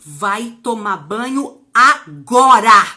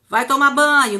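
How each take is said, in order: First: It is said as a forceful, commanding order. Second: It is said as a mild, gentle request.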